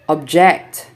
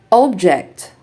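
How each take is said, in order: First: ObJECT, stressed on the second syllable; light ob, strong JECT in object; verb stress. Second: OBject, stressed on the first syllable; noun stress. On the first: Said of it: "verbs are stressed on the second syllable". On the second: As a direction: punch OB in Object, then fall. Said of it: "nouns are stressed on the first syllable". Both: Shown as a demonstration.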